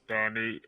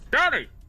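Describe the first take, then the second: First: The name is said at an ordinary volume. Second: The name is shouted loudly and excitedly. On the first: The greeting is an ordinary one. "normally they'll just say like" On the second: The name carries an exclamation mark. "everyone shouting at me / just that one word"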